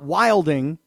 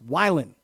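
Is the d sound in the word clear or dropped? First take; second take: clear; dropped. First: The d sound is clearly pronounced. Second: The d sound is dropped, under-enunciated. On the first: The speaker calls it wrong. "So it's not wilding" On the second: The speaker calls it right. "It's a silent D"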